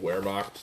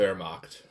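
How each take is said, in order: First: The word begins with a W sound. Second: The word begins with a V sound. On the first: Some people say it this way. "people call it the Wehrmacht too" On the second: This is how it is said in Germany. "in Germany it's pronounced with the V"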